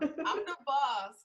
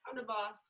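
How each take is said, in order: First: It is said loudly. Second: It is said quietly.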